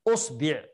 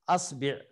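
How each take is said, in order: First: The word begins with an u vowel. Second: The word begins with an a vowel. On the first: "نبدأ بالضم" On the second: "نبدأ بالثانية الفتح"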